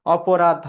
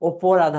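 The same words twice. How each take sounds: First: অপরাধ starting on an unchanged open "aw"; open first vowel. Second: অপরাধ starting on a closed "o"; wrong first vowel. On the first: Teacher explains the negative prefix, অপরাধ with open অ. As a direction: say অপরাধ as "aw-po-radh". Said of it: "অ এর উচ্চারণ অপরিবর্তিত থাকে". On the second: Teacher rejects this form for students, অপরাধ with closed o. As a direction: mispronounce অপরাধ as "o-po-radh". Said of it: "হবে না". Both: Shown as a demonstration.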